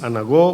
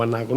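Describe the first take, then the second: First: "anagó" with the stress on the last syllable; stress on final O. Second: "anago" with the stress on NA, short final O. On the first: Preacher unsure of the Greek word, "anagó" stressed at the end. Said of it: "otro con acento en la O". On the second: Preacher offering the other reading, "anago" stressed on NA. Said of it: "aparecía con acento en la A". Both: Shown as a demonstration.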